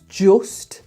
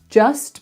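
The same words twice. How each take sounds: First: The vowel is said in a Black Country accent. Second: The vowel is said in a standard accent. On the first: "Very far forward, that sound" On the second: "just becomes"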